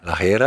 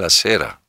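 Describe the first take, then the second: First: The word begins with a breathy h sound. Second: The word begins with a clear s sound.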